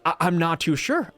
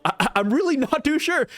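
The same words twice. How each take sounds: First: Said in the usual way. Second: "really" pushed higher, the whole line lifted; insistent repeat, punching "really"; emphatic really. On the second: Real, not acted. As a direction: lean hard on "really", voice higher. Repeats doubt with more force.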